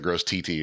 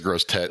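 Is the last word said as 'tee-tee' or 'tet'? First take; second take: tee-tee; tet. First: The last word is said as 'tee-tee'. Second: The last word is said as 'tet'. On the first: The speaker calls it wrong. "I have said TT so many times" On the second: The speaker calls it right. "He said, "It's gross Tet.""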